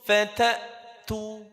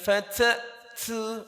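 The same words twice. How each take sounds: First: The t sound is pronounced with moderate force. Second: The t sound is pronounced with exaggerated force. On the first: The speaker calls it right. "cukup fatatu" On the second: The speaker calls it wrong. "bukan fatatu"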